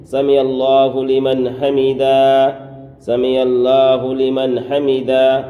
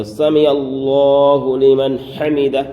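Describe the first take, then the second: First: سمع اللہ لمن حمدہ with a thin اللہ and حمدہ split as ہمدہ; the common mistaken way of سمع اللہ لمن حمدہ; سمع اللہ لمن حمدہ with the lam of اللہ not made full; wrong recitation. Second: Slow سمع اللہ لمن حمدہ with a full, rounded اللہ; سمع اللہ لمن حمدہ drawn out, اللہ said heavy and full; correct recitation. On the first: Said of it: "بعض حضرات کہتے ہیں". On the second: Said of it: "یہ ہے صحیح تلفظ". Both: Shown as a demonstration.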